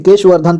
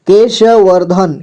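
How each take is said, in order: First: Said in the usual way. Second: केशवर्धन slowly, with श given its own vowel; syllable by syllable. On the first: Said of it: "केशवर्धन पढ़ेंगे इसे". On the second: Shown as a demonstration. Teacher showing how केशवर्धन is read, slowly syllable by syllable. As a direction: sound out केशवर्धन slowly, piece by piece. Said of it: "केशवर्धन ऐसे".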